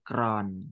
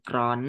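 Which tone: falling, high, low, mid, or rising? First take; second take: low; high. First: The syllable is said with a low tone. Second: The syllable is said with a high tone. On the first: "ไม้เอก" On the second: "ไม้ตรี"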